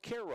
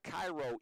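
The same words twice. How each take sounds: First: Said unlike the name of the Egyptian city. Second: Said like the name of the Egyptian city. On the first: This is how the town's own name is said. "but pronounced Cairo" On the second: This is the spelling the name shares with the city. "Spelled like Cairo, Egypt"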